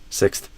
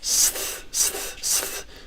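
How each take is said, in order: First: The word is said quickly. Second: The word is said slowly. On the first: "eventually you want to build up speed" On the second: "you can slow down the word"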